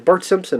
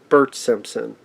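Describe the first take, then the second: First: The name is said quickly and blurred. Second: The name is said slowly and clearly. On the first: "when people are saying too quickly" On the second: "it's Bert"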